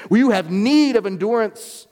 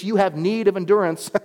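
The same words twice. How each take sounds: First: Need of endurance pressed louder and slower; emphatic repeat. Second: Said in the usual way. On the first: Shown as a demonstration. Pastor repeating the verse to the church, stress on need. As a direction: drive home need of endurance. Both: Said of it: "That's the understatement".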